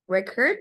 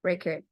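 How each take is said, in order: First: Record said again with a rising tune. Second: Record stressed on the first syllable, falling; noun record. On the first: Teacher repeating the word for the class, rising. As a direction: repeat Record lifting at the end. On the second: Teacher modelling the noun pronunciation, falling. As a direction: model Record as REC-ord with a falling tune. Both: Shown as a demonstration. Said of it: "Record is a different thing".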